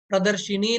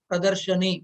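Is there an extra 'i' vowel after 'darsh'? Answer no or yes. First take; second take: yes; no. First: An extra 'i' vowel follows 'darsh'. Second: No vowel follows 'darsh' before 'ni'. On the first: The speaker calls it wrong. "प्रदर्शिनी नहीं" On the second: The speaker calls it right.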